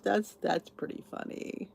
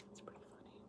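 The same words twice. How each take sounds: First: Said in the usual way. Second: Whispered under breath; repeating her own remark to herself in a whisper. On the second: Real, not acted.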